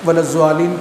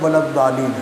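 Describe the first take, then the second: First: The middle consonant sounds like a z. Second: The middle consonant sounds like a d. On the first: The speaker calls it wrong. "वलज़्ज़ालीन कोई लफ्ज़ ही नहीं है" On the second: The speaker calls it right. "वलद्दालीन है"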